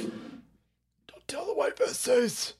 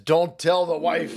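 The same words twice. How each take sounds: First: Breathy secret whisper, much softer. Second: Said in the usual way. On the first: Acted. Streamer whispering a secret to viewers, unvoiced whisper. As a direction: hush it like a secret kept from the wife.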